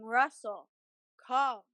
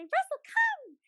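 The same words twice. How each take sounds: First: It is said in a calm, flat voice. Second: It is said in an excited, lively voice. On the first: The dog should stay still. The speaker calls it wrong. "that sounds like I want him to stay stationary" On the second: The dog should come. The speaker calls it right. "run away and be really excited"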